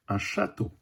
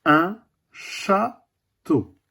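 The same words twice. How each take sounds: First: Said in the usual way. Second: Château drawn out very slowly; slow teaching word. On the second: Shown as a demonstration. A teacher showing the class château, very slowly. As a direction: stretch un château slowly for the children. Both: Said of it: "Quatrième dessin".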